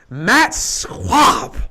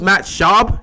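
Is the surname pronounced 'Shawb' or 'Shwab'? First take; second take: Shwab; Shawb. First: The surname has a w sound after sh. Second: The surname has no w sound after sh. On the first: The speaker is mocking a player he thinks is terrible. The speaker calls it wrong. "I never pronounced it Shab because I was always disgusted. So I would always be like Matt Schwab" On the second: This is the player's real name. The speaker calls it right. "I knew that's how you pronounced it"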